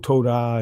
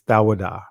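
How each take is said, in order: First: It starts with a 'toe' sound. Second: It starts with a 'thaw' sound. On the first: This is the modern Israeli form. The speaker calls it wrong. "Oh, Todah and all that other stuff. No" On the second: This is the ancient Hebrew form. The speaker calls it right. "ancient Hebrew is Thawadah"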